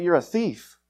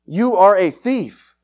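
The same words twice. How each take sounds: First: Said in the usual way. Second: "You are a thief" very slow, hitting "are"; slow emphatic restatement. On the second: Shown as a demonstration. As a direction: lean on "are" and draw every word out.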